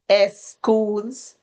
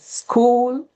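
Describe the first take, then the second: First: An extra vowel comes before the s sound. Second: The word begins directly with the s sound.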